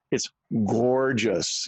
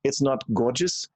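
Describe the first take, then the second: First: "gorgeous" drawn out slowly in American sounds; slow, easy American "gorgeous". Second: "gorgeous" said with the throaty German-style r; "gorgeous" with a heavy accent; wrong accent "gorgeous". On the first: Friend demonstrating the right American "gorgeous", slowly. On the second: Friend demonstrating the wrong "gorgeous" accent. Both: Shown as a demonstration. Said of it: "let me start right here".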